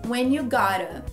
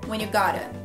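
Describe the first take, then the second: First: The phrase is said at a slower pace. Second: The phrase is said at a faster pace. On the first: "Primeira parte" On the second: "Mais rápido"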